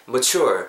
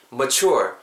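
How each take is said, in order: Both takes have the same delivery.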